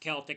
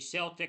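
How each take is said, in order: First: The word begins with a hard K sound. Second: The word begins with a soft S sound. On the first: The speaker calls it right. "It's a hard C" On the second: The speaker calls it wrong. "excuse me"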